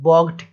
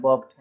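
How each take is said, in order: First: "balked" with a hard g, bɔɡʈ; sounding every letter in "balked"; wrong pronunciation of balked. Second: Said in the usual way. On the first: Shown as a demonstration. Teacher showing a wrong way to say a word. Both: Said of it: "ऐसा भी नहीं बोलना है".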